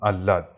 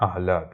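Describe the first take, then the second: First: আহ্লাদ said "al-laad", no h; colloquial Bengali pronunciation. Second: আহ্লাদ said "ah-laad", h sounded; correct pronunciation. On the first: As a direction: swallow the h in আহ্লাদ into a double l. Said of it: "বাংলায় অনেকে বলি আহ্লাদ". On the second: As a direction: keep the breathy h before the l in আহ্লাদ. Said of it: "এর উচ্চারণটা হচ্ছে আহ্লাদ". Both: Shown as a demonstration.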